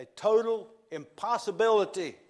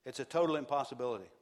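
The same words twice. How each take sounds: First: Loud and higher, "total" hammered; full-force preacher punch on "total"; preaching loud. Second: Fast, at usual level, "total" hit; brisk preacher restatement; quick repeat. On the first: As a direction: proclaim "a total impossibility" with force. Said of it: "special emphasis". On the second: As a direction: rattle off "It's a total impossibility". Repeat of line 85. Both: Real, not acted.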